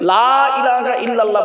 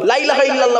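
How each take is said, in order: First: The opening vowel of 'la' is drawn out. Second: The opening vowel of 'la' is cut short. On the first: There is no deity except God. The speaker calls it right. "লামে টান দেবেন, লয়াকারে টান দেবেন" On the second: There is certainly a deity besides God. The speaker calls it wrong. "বলবেন না"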